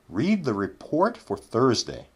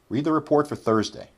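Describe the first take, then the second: First: The sentence is spoken at a slow pace. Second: The sentence is spoken at a quick pace.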